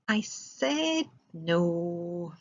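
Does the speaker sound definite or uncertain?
uncertain. It is said in a hesitant, uncertain way. The answer could still change. "if I say it like this, I said no, but I might change my mind"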